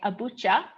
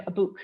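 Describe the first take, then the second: First: ABUCHA ending in a "cha" sound; "abucha", Harub style with a ch; dialect ch form. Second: Said in the usual way. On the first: Shown as a demonstration. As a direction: say "abucha" with ch in place of k. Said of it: "people say abucha instead of abuk". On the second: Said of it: "instead of abuk".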